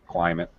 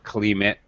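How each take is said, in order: First: The first vowel is a long I sound. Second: The first vowel is not a long I sound. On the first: The speaker calls it right. "long I sound" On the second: The speaker calls it wrong. "This is not climate"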